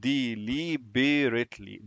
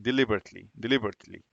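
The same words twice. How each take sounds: First: Deliberately said very slowly, syllable by syllable; slowed down. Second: Said in the usual way. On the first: Shown as a demonstration. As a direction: stretch out every syllable of deliberately. (نطق deliberately ببطء مقطع مقطع) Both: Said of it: "نلاقي كلمة deliberately".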